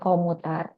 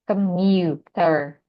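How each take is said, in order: First: The first syllable has a full O vowel. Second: The first syllable has a weak uh vowel. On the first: The speaker calls it wrong. "ini bukan O ya, bukan komuter" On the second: The speaker calls it right. "tapi ke, mu, ... sebagai Y ya"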